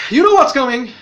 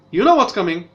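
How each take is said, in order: First: Louder, higher teasing warning; dramatic hint of doom; ominous tease. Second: Said in the usual way. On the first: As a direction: build suspense for the twist. Teasing the twist to come.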